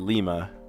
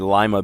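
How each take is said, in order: First: It is said the NATO alphabet way. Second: It is said the lima bean way. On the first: It names the letter L. "in the NATO alphabet, you say Lima" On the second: It names the bean. "if you're talking about the bean, you say Lima bean"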